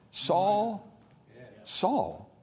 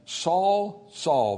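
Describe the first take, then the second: First: Soft, sympathetic calling of the name; merciful call. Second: Said in the usual way. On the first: Shown as a demonstration. God calling Saul by name, softly and mercifully. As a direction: call his name gently, with mercy. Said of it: "There's mercy in that". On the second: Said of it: "there's sympathy in that".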